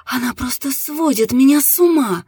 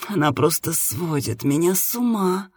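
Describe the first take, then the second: First: Higher-pitched, heightened moan. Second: Softly sighed, restrained moan. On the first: Woman answering her partner's question, high moan. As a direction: cry it out high, moaning. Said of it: "застонала женщина". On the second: Woman telling her partner of her pleasure, restrained moan. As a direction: let it sink into a mild moan. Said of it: "громко застонала". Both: A narrator's reading.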